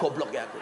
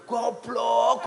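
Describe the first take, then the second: First: Said in the usual way. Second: Sharp, loud "Goblok," spat out high; self-scolding outburst. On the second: Retold or imitated. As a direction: snap "Goblok," at yourself, higher and louder. (nyeluk "Goblok," banter lan dhuwur)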